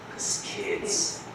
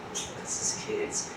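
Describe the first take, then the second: First: Hushed, slow whisper. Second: Slow, even softer whisper; fainter whisper. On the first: Teacher whispering the answer to the class. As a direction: breathe it out slowly. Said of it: "repeated as whispered punchline". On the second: Teacher repeating the answer in a fading whisper. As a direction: let it fade almost to nothing. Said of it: "repeated softer still". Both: Shown as a demonstration.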